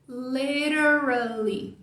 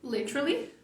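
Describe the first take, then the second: First: It is said with an American accent. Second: It is said with a British accent.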